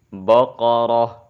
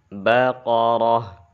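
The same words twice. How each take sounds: First: The b sound is made heavy and thick. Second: The b sound is kept light and thin. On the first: The speaker calls it wrong. "menebalkan ba. Itu adalah kesalahan" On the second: The speaker calls it right.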